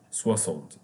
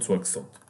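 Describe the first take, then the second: First: Soixante said swa-SANT, the x sounded as a plain s; correct pronunciation. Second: Soixante said swak-SANT, the x sounded as ks; wrong pronunciation. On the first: Teacher showing students the x in soixante as s, careful demo. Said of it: "pay attention that we say here soixante". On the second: Teacher warning students off the wrong form, soixante with ks. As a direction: mispronounce soixante with a hard ks in the middle. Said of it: "Not soixante". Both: Shown as a demonstration.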